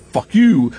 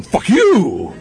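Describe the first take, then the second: First: Raised-pitch retort; lightly acted pirate defiance; mock defiance. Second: Drawn-out, higher mock yell; hammed-up insult with a stretched "you"; mock infighting. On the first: Pirates defying outsiders, mildly defiant. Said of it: "not only are they like". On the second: Pirates turning on each other, hammed-up defiance. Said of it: "going to each other and going".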